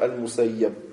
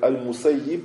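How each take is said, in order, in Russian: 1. Гласный перед конечным b — a. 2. Гласный перед конечным b — i. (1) "можно аль-мусайяб" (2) "Бикаси вальфат. Можно как аль-мусайяб"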